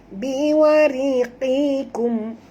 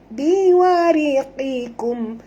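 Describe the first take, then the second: No difference in how they are said.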